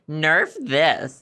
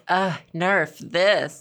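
First: It is said in a plain, cheesy tone. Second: It is said in a sexy, breathy tone.

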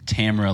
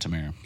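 First: The name is said to rhyme with camera. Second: The name is said not rhyming with camera. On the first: "like camera" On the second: "But I've always heard Tamara"

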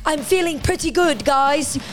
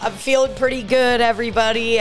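First: It is said in a put-on character voice. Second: It is said in a natural voice.

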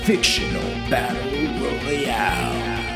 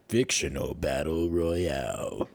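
First: It is said in a lighter announcer voice. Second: It is said in a deeper announcer voice.

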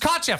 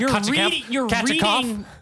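First: The name is said with two syllables. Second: The name is said with three syllables. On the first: The speaker calls it right. "This is two" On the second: The speaker calls it wrong. "you can't three laugh syllables"

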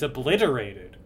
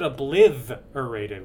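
First: The consonant after 'obli' is a plain t. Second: The consonant after 'obli' is a th sound. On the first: The speaker calls it right. "It's obliterated" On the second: The speaker calls it wrong. "You said obliterated with a T-H"

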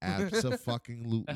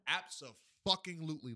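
First: It is said louder, close to the microphone. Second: It is said at normal volume.

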